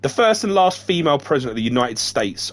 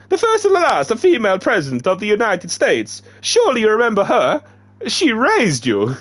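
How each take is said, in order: First: Said in the usual way. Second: Very high, loud put-on accent for The first and last female president. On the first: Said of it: "Oh, crap, this is in the accent". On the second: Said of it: "this is in the accent".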